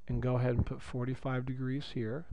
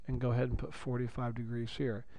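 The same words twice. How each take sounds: The two takes are said the same way.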